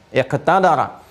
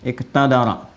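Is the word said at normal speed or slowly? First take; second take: slowly; normal. First: The word is said slowly and carefully. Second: The word is said at normal speed.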